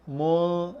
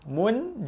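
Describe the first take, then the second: First: The n sound is hidden and blurred. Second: The n sound is pronounced fully and clearly. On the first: The speaker calls it right. "Ikhfa mu mu ha, dia macam sama-sama sikit bunyi" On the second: The speaker calls it wrong. "Jangan baca mun. Mun jelas. Ha, itu bukan ikhfa"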